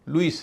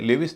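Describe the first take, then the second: First: It is said with no v sound: loo-is. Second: It is said with a v sound: le-vis. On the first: The speaker calls it right. "लुइस है। L E W से लू" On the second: The speaker calls it wrong. "ये लेविस नहीं है"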